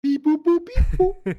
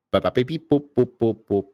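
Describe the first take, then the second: First: Sing-song beep boop robot. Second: Bad robot beeps. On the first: Pretend. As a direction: musical robot beeps, higher pitched. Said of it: "Ah, too musical". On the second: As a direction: beep boop robot noises. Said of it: "Oh no, I'm roboting".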